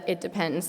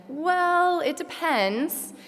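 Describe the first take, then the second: First: Said in the usual way. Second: Slow, higher drawn-out "Well, it depends"; playful take on the teachers' stock answer; imitating a lecturer. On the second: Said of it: "Your favorite answer to our question".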